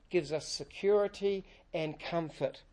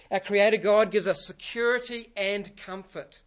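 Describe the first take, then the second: First: Said in the usual way. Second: Louder, stress on God in "Our Creator God"; emphatic restatement. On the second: Shown as a demonstration. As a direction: repeat the theme with weight on "God".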